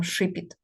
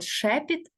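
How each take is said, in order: First: "шипіт", the mistaken form with stressed и; wrong "и" vowel. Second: "шепіт", first vowel an open е, not и; correct "е" vowel. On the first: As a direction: say "шипіт" with и in the first syllable instead of е. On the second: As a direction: say "шепіт" with a clear stressed е in the first syllable. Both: Shown as a demonstration. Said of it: "ми не скажемо шипіт".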